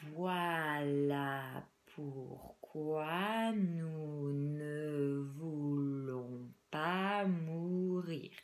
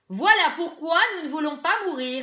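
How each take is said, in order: First: The sentence is spoken very slowly. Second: The sentence is spoken very loudly without shouting. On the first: "On va les dire très lentement" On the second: "très fort, euh, sans, sans crier"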